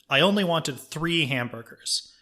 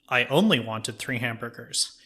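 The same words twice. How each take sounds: First: The stress falls on the word 'wanted'. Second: The stress falls on the word 'only'. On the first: "you stress a different word in the sentence" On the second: "you stress a different word in the sentence"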